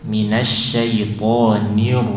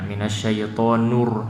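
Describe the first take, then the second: First: The vowel after the n sounds like i. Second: The vowel after the n sounds like u. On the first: The speaker calls it right. "ni-nya jelas i" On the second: The speaker calls it wrong. "kesalahan jali itu menggantinya dengan u"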